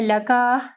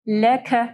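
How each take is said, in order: First: The final K is followed by a vowel. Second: The final K is soft with a breathy release. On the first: The speaker calls it wrong. "काफ को जो है लका नहीं पढ़ना" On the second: The speaker calls it right. "नरम पढ़ना है"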